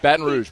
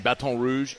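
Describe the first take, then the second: First: It is pronounced the way locals say it. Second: It is pronounced the way outsiders say it. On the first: The speaker is from the city. The speaker calls it right. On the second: The speaker is not from the city. The speaker calls it wrong.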